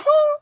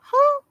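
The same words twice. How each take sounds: First: Much higher, louder shocked shout; shocked who. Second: Said in the usual way. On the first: Retold or imitated. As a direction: yelp it in outrage. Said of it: "I'm looking like". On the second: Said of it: "And I'm looking like".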